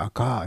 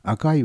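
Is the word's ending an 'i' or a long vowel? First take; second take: long vowel; i. First: The ending vowel is stretched, Tokai dialect style. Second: It ends in a clear 'i', standard Japanese.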